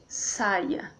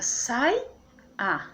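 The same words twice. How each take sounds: First: Said in the usual way. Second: "sai-a" slowly in two beats; split into syllables. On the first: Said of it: "fica sai-a". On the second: Shown as a demonstration. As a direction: pause between sai and a.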